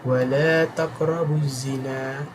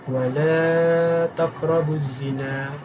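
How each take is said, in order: First: The vowel of 'la' is held briefly. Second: The vowel of 'la' is held longer. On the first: "sama ada dua harakat" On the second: "atau empat harakat"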